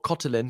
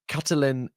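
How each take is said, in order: First: The name is said with a Hungarian pronunciation. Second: The name is said with an English pronunciation.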